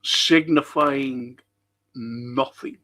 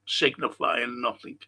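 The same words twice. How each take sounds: First: Very slow, weighty recital; slow theatrical Shakespeare delivery; dramatic slowing. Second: Said in the usual way. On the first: Shown as a demonstration. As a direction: stretch each word out like a stage actor. Repeating the Macbeth quote.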